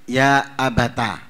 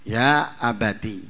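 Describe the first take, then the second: First: The final syllable ends with an 'a' vowel. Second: The final syllable ends with an 'i' vowel. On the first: This is the reading of most reciters. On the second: This is the reading of Abu Ja'far and Ibn Amir.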